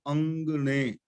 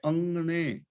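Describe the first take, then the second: First: ਅੰਗਣੇ with a clearly sounded g after the nasal; hard g. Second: ਅੰਗਣੇ with a pure ng and no g; nasal ng. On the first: Teacher showing how not to say it, hard-g ਅੰਗਣੇ. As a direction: say ਅੰਗਣੇ as ang-gne, g audible. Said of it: "ਹੁਣ ਗੱਗਾ ਬੋਲ ਰਿਹਾ ਹੈ". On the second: Teacher giving the right reading, nasal-ng ਅੰਗਣੇ. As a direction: say ਅੰਗਣੇ as ang-ne, letting the nasal replace the g. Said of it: "ਨੰਗਾ ਬੋਲਣਾ ਹੈ". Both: Shown as a demonstration.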